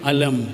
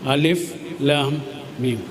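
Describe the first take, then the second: First: The letters are read together as one word. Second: Each letter is read by its separate name. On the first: Here the letters form an ordinary word in the verse. "അവിടെ എങ്ങനെയാണ് നമ്മൾ ഉപയോഗിക്കുക? വായിക്കുക എങ്ങനെയാ?" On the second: Here the letters stand alone as separate letters. "അവിടെ എങ്ങനെ വായിക്കുക? അലം എന്ന് വായിക്കുക?"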